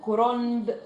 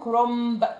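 First: كرنب with a real n before the b; a spelling-style n before b; written pronunciation. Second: كرنب said kromb, the n turned to m before b; everyday m-sound for the n; colloquial iqlab. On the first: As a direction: say كرنب the way it is spelt, with n. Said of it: "ما بنقول". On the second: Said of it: "لا بنقول كرنب". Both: Shown as a demonstration.

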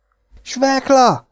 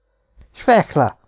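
First: Feigned delight. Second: Said in the usual way. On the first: Acted. Piki pretending to be thrilled at meeting the big boy, high and slow. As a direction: exclaim the name much higher, slow, in put-on joy. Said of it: "kiáltott fel tettetett örömmel Piki". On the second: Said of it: "felelte az".

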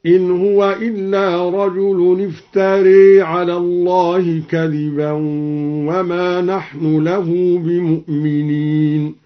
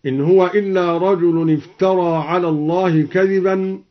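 First: افتري ending in a long e, "iftare"; recited with imala. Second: Said in the usual way. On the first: Shown as a demonstration. Teacher demonstrates the variant reading, reciting افتري with a long e ending. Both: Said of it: "هكذا".

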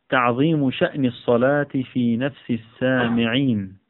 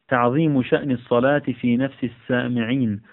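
Both takes have the same delivery.

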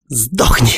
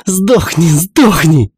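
First: Said in the usual way. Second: High, loud furious cry; loud shout. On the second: Acted. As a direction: yell it with every blow. (громкий яростный крик) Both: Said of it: "сопровождался громким криком".

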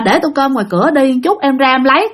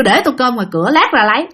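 First: Easy, flowing answer in an everyday voice; polite usual reply. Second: Short blunt answer, lifting on the last words; curt, clipped reply. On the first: Bảy as he normally answers his older brothers, polite. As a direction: answer an elder politely and smoothly. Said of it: "bình thường đi là ổng sẽ trả lời". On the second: Bảy now brushing off his elders, curt and blunt. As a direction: say it bluntly in two abrupt chunks. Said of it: "Còn đằng này nhát gừng luôn". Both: Retold or imitated.

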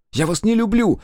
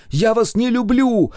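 First: High, loud desperate scream, stress on не. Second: High, loud wail, stress on люблю; wailing scream. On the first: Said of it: "Я закричала". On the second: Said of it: "причитала я". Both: A narrator's reading.

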